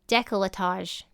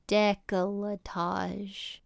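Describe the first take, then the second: First: The word is said at normal speed. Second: The word is said slowly and drawn out.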